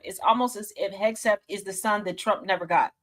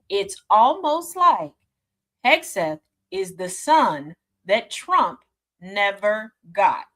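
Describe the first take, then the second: First: It is said at normal speed. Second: It is said slowly and deliberately.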